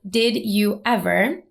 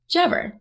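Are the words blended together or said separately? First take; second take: separately; blended. First: Each word is pronounced separately and fully. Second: The words blend into one short form. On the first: "phrases like did you ever" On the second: "pronounced like jever"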